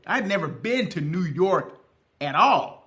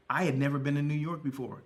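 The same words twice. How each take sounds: First: "had" and "at all" pressed home louder; emphatic repeat. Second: Said in the usual way. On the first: Shown as a demonstration. Repeating to viewers that he'd never been, with stress on "had" and "at all". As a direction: lean hard on "had", then punch "at all" louder.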